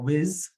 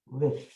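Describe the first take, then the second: First: The word ends with a z sound. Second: The word ends with a th sound. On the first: The speaker calls it wrong. "or whiz if you can't say that th sound" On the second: The speaker calls it right. "but with"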